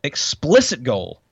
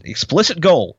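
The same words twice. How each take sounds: First: "explicit" drawn out slowly and weighted; stress on explicit. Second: Said in the usual way. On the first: Shown as a demonstration. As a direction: lean on "explicit", slow the whole phrase. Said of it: "repeated slowly for emphasis". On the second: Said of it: "quote read, then repeated slower".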